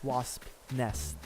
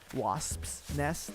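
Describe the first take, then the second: First: No s sound is added after wasp. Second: An s sound is added after wasp. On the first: It is the form used in the game. "But in the game it's wasp nest" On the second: It is the possessive form of the noun. "in my head it's always wasps. You know, like the possessive form"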